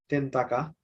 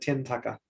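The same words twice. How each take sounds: First: The t is said without a puff of air. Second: The t is said with a puff of air. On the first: The speaker calls it wrong. "we used to say" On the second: The speaker calls it right. "now we're gonna say"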